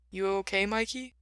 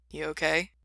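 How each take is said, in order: First: Hesitant. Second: Said in the usual way. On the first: A narrator's reading. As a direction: ask gingerly, afraid to interrupt. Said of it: "Ray sounded hesitant".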